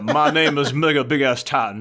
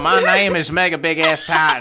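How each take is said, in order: First: It is read in a weak, barely redneck accent. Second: It is read in a heavier redneck accent. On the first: "That sounds too educated" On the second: "Oh, okay, sorry"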